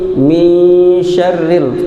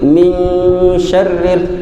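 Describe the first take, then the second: First: The nasal after 'mi' is dropped, like a 'y'. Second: A clear nasal hum follows 'mi' before 'sh'. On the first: The speaker calls it wrong. "mi-nya di sini kita kadang terbaca iya" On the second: The speaker calls it right. "nampakkan gunnahnya, nampakkan ikhfanya"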